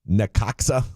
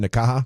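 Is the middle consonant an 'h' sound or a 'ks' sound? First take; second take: ks sound; h sound. First: The middle consonant is a 'ks' sound. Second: The middle consonant is an 'h' sound. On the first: The speaker calls it wrong. "My bad on the pronunciation" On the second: The speaker calls it right. "It's like the Oaxaca cheese"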